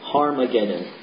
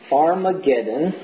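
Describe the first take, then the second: First: The word begins with a breathy h sound. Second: The word begins directly with a vowel.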